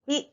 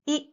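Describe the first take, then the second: First: A short pure 'ee' vowel. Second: A short pure 'ee' vowel.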